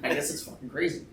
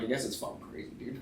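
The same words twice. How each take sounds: First: Said in the usual way. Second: Whispered shrug. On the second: Retold or imitated. Retold muttered reply to wife.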